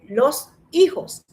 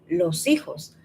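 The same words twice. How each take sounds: First: The two words are said separately, unlinked. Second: The two words are linked into one flow. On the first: The speaker calls it wrong. "Nadie dice los hijos" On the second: The speaker calls it right. "La gente dice los hijos... Se conecta"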